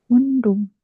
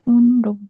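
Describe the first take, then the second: The two takes are said the same way.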